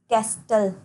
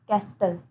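The two takes are said the same way.

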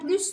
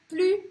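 First: The final S sound is pronounced. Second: The final S sound is silent. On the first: "Pronuncio este S" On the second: "porque não falo esse S"

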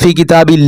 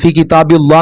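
First: The L in Allah sounds light and thin. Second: The L in Allah sounds heavy and full. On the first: The speaker calls it right. "ഇവിടെ കസർ വന്നാൽ എന്ത് ചെയ്യണം? ഫി കിതാബില്ല എന്ന് ഓതണം" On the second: The speaker calls it wrong. "ഫി കിതാബില്ല എന്ന് ഓതാൻ പാടില്ല"

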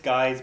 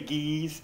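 First: Guy's is said the common English way. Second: Guy's is said another, less common way. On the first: The speaker calls it right. "but it's Guy's Burger Joint" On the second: The speaker calls it wrong. "I always say Guy's, and people give me a hard time about it"

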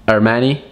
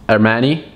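The two takes are said the same way.

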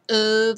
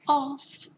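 First: The word ends with a V sound. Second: The word ends with an F sound. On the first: This is how it is said today. "Now we say more of an of sound" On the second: This is how it was said long ago. "A long time ago, they used to say, off"

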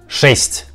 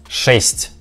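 No difference in how they are said.

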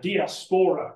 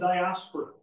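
First: The word is pronounced in a fancier way. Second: The word is pronounced in an ordinary way.

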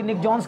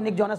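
First: The surname is said as one syllable. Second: The surname is said as two syllables. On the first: "कोई निक जॉन्स कहता है" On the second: "कोई निक जॉनस कहता है"

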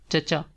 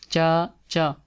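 First: The two syllables are said joined together. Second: The two syllables are said separately.

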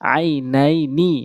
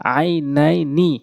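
The two takes are said the same way.

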